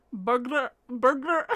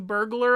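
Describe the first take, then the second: First: Mock Scottish "burglar", said twice; imitated Scottish accent. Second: Said in the usual way. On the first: Host imitates videos of Scottish people, mock Scottish accent. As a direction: mimic Scots struggling through "burglar". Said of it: "It's normally what it sounds like". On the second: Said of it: "of Scottish people saying burglar alarm".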